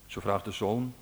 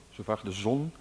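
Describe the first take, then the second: First: Zoon said with a long oo, the wrong word; slip of the tongue. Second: Zon said with a short o, meaning sun; corrected word. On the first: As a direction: misread zon as zoon, long vowel. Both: Real, not acted.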